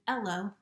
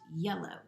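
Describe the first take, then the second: First: The word starts without a y sound. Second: The word starts with a y sound.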